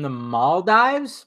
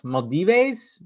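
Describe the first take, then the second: First: "Maldives" as MAWL-dives, rising at the end; unsure pronunciation. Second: "Maldives" in three syllables, mal-DEE-vays; alternative pronunciation. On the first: Host guessing at a viewer's location, "Maldives" said MAWL-dives. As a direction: say "Maldives" ending like "dives", questioningly. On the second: Host trying another guess aloud, "Maldives" said mal-DEE-vays. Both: Shown as a demonstration. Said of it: "Am I saying that right".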